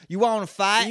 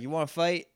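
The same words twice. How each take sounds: First: It is said in an imitated character voice. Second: It is said without imitating the character's voice. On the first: The speaker calls it right. "Talk about AJ's voice" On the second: The speaker calls it wrong. "he doesn't say it like that"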